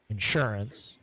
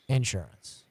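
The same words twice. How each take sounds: First: The stress is on the second syllable. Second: The stress is on the first syllable. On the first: "as we say in the North Country" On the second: "And South, the stress is on the first syllable, right?"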